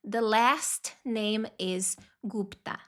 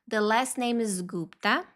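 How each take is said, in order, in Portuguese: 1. A frase é dita mais devagar. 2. A frase é dita mais rápido.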